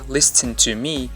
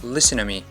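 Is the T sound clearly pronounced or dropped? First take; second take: pronounced; dropped. First: The T sound is clearly pronounced. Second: The T sound is dropped. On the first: "He didn't say listen to me" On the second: "he said listen to me ... natives drop that T"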